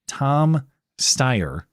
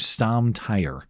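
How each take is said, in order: First: The s sound starts the surname. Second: The s sound starts the first name. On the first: The speaker calls it right. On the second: The speaker calls it wrong.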